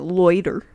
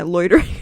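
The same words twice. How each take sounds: First: Louder, hammed-up put-on accent on "Loiter"; mock accent. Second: Said in the usual way. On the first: Shown as a demonstration. Streamer shows her friend the word in a mock accent. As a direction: lean into a goofy accent for "Loiter". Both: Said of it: "You gotta say it with, like, an accent".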